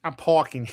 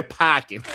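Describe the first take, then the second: First: Said in the usual way. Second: "parking" in Boston accent, r dropped; Boston accent, open a and no r in "parking". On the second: Shown as a demonstration. Streamer correcting himself to a Boston accent on "parking". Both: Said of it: "the Boston accent is like this".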